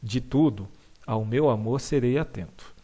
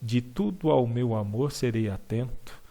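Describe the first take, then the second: First: The final vowel of tudo stays separate from ao. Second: The final vowel of tudo merges into ao. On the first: It is read as ordinary prose. "uma pessoa lendo um texto normal, eu leria assim" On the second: It is read with the rhythm of a poem. "a última sílaba da palavra tudo, né, se junta à palavra ao"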